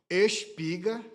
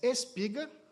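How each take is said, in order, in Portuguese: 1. O s é um som de sh prolongado. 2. O s é um s sibilante simples. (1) "o pessoal do Rio de Janeiro já está ouvindo ali, né? Se puxasse o S" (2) "tudo bem, pode passar, isso é dos nossos"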